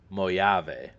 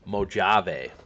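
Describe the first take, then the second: First: It is read the way an Eastern European would. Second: It is read the way an English speaker would.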